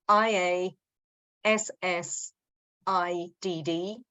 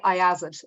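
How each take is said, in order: First: Iassid spelled letter by letter. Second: Iassid said as one word, eye-ass-id. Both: Shown as a demonstration. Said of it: "I don't even know if I pronounce it right".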